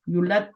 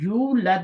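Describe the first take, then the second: First: The first vowel is short. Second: The first vowel is long. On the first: The speaker calls it wrong. "युलद तो नहीं बोलते" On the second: The speaker calls it right. "यू लद बोलते हैं ना पढ़ते हुए"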